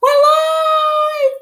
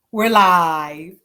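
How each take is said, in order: First: High, loud shouted announcement; excited shout. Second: Said in the usual way. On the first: Real, not acted. Host to livestream viewers, excited high shout. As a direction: belt it out to the viewers.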